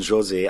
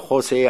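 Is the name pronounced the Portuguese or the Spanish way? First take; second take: Portuguese; Spanish. First: The name is said with Portuguese pronunciation. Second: The name is said with Spanish pronunciation. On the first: The bearer is Portuguese. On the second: The bearer would be Spanish. "Wenn er Spanier wäre"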